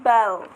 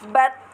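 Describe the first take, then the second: First: The l sound is kept clearly separate. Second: The l merges into the following t sound. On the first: The speaker calls it wrong. "bukan bal" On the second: The speaker calls it right. "dibaca dengan uh, bat"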